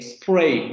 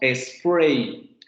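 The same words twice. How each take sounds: First: The word starts directly with the s sound. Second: A short e vowel comes before the s. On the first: "no decimos eh, spray" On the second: "decimos spray... Le metemos esta vocal para españolizar esa palabra"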